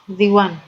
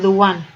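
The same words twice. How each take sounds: First: "The" has a long ee vowel. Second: "The" has a short uh vowel. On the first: The speaker calls it right. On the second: The speaker calls it wrong.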